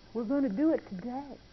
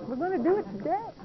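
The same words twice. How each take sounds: First: Said in the usual way. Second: Higher and faster insistent repeat; firmer repeat. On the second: Retold or imitated. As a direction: push it a bit higher and quicker. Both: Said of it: "He said".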